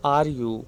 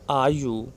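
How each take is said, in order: Both takes have the same delivery.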